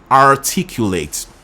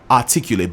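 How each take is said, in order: First: It is said with a clear American R. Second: It is said in a British accent, no R.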